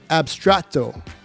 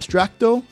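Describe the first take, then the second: First: No k sound comes before the t. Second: A k sound comes before the t. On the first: The speaker calls it right. "but it's Abstrato" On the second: The speaker calls it wrong. "I think I might have said Abstracto"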